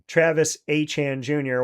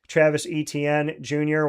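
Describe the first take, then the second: First: The surname is said like Achan. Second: The surname is said like Etienne. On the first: The speaker calls it right. "that's because he said that's the way to say it" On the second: The speaker calls it wrong. "it's been said wrong"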